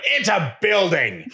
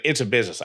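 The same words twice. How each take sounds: First: High, slow, incredulous It's a building; exasperated retort. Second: A flat, dismissive attendant; deadpan it's a business, no care. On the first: Mom fires back at the attendant, high and incredulous. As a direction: draw out It's a building, higher, fed up. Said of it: "I'm like". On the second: The garage attendant brushes off the mom, flat. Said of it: "so the guy's like". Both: Retold or imitated.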